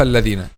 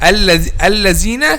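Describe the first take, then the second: First: The middle consonant sounds like a voiced th. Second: The middle consonant sounds like a z. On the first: The speaker calls it right. "instead of" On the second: The speaker calls it wrong. "They make الذال as letter زي"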